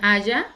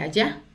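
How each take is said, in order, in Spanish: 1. El acento está en la primera sílaba. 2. El acento está en la última sílaba.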